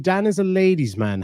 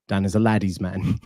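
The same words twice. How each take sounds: First: Said in the usual way. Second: "laddie's" said with a short A, like lad; misspelling read literally. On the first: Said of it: "you misspelled it". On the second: Shown as a demonstration. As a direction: read "laddie's" with the extra D sounded, lower voice. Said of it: "There's an extra D in there".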